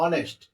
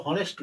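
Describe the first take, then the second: First: "অনেস্ট" with the H dropped entirely; silent H pronunciation. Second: "হনেস্ট" opening on a breathed h sound; wrong pronunciation, H sounded. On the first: Teacher corrects students, "অনেস্ট" with silent H. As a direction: say "অনেস্ট" starting straight on the vowel. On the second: Teacher shows students the mistake, "হনেস্ট" with H pronounced. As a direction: say "হনেস্ট" with an audible H at the start. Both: Shown as a demonstration. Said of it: "এইচ এর উচ্চারণ হনেস্ট না".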